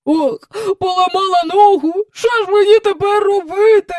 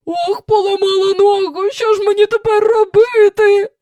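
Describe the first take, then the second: First: High loud wailing, almost crying; booming lament. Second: High lamenting wail. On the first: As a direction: boom the lament like a drum. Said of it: "раз у раз бесувала Елін". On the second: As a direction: moan it out like a howl. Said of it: "заголосила вона". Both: A narrator's reading.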